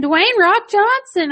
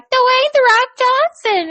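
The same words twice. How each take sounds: First: Put-on high, slow little-kid voice; high child voice, drawn out; imitating a little kid. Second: Put-on high, slow little-kid voice; drawn-out high child voice; imitating a little kid. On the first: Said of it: "he kept saying". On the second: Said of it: "was like".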